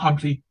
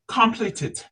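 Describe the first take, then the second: First: The ending is not pronounced as a separate syllable. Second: The ending is pronounced as a separate syllable. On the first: The speaker calls it wrong. "not completed" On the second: The speaker calls it right. "Complete and then ted"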